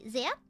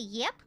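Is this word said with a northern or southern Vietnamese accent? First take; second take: northern; southern. First: The word begins with a z sound. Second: The word begins with a y sound. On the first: "we say zap" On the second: "but they say yep"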